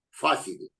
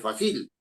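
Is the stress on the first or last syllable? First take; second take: first; last. First: The stress falls on the first syllable. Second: The stress falls on the last syllable. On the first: The speaker calls it right. "dice fácil" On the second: The speaker calls it wrong. "Uno no dice fácil"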